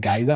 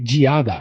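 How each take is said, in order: First: The first syllable sounds like 'guide'. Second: The first syllable does not sound like 'guide'. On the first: "because it's like, it's the guide" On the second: "it's really Giada"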